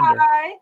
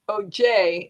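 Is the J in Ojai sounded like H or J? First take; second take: H; J. First: The J is sounded like an H. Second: The J is sounded like an English J. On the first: The speaker calls it right. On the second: The speaker calls it wrong.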